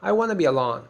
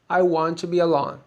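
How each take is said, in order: First: The words 'want to' blend into 'wanna'. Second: The words 'want to' are said in full. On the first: This is the casual way to talk with friends and family. "Informal English, when you are talking to your family" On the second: This is the formal way to say it. "Formal English"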